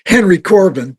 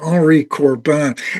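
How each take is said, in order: First: The name is pronounced the American way. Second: The name is pronounced the French way. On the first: "rather than Henry Corbin" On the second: "I always use the French pronunciation"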